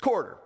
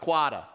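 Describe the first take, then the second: First: It is said in a West Coast accent. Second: It is said in an East Coast accent. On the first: The speaker calls it right. "It's quarter" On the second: The speaker calls it wrong. "That's my Eastern accent for you guys"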